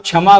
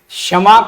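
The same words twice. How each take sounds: First: The word begins with a 'chh' sound. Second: The word begins with a 'ksh' sound. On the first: The speaker calls it wrong. "कहते हैं" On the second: The speaker calls it right. "क्षमा को"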